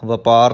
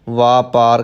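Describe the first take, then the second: First: The first vowel is short. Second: The first vowel is long. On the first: The speaker calls it wrong. "ਵਪਾਰ ਨਹੀਂ ਕਹਿਣਾ" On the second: The speaker calls it right. "ਵਾਪਾਰ ਕਹਿਣਾ ਹੈ"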